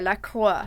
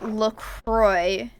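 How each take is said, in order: First: The R is a French-style R. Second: The R is an English-style R. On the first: The speaker calls it right. "the correct pronunciation is La Croix, like with the French R" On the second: The speaker calls it wrong. "pronounce that incorrectly"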